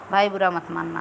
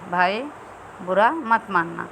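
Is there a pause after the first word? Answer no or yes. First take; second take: no; yes. First: It is said in one go without a pause. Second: There is a short pause after the first word. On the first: The speaker calls it wrong. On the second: The speaker calls it right.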